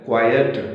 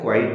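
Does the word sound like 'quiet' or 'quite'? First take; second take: quiet; quite. First: The word sounds like 'quiet'. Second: The word sounds like 'quite'. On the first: The speaker calls it right. "इसे हम pronounce करते हैं क्वाइट" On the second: The speaker calls it wrong. "इसे हम क्वाइट नहीं पढ़ते हैं"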